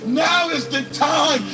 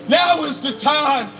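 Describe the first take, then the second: No difference in how they are said.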